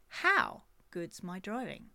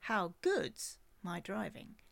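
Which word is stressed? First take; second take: How; good's. First: The stress falls on the word how. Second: The stress falls on the word good's.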